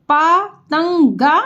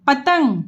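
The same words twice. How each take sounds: First: पतंगा drawn out slowly, each part separate; syllable by syllable. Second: Said in the usual way. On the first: Shown as a demonstration. Teacher to pupils, spelling out पतंगा slowly. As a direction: sound out पतंगा slowly for the class.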